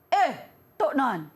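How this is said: It is said in an angry tone.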